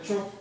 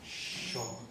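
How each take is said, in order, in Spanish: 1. La palabra empieza con el sonido 'ch'. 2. La palabra empieza con el sonido 'sh'. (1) "me tuve que reentrenar a pronunciar la palabra cho" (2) "me sorprendo a mí mismo diciendo en lugar de cho, sho"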